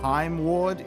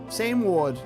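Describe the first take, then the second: First: The name begins with a hard K sound. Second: The name begins with a soft S sound. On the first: The speaker calls it wrong. "It's not Kaim Ward" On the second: The speaker calls it right. "It's same, same Ward"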